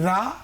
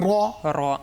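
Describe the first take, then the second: First: The r is said thin and light. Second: The r is said thick and heavy. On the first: The speaker calls it wrong. "আমি যদি পড়ি রা, ভুল হবে" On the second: The speaker calls it right. "পড়তে হবে র র"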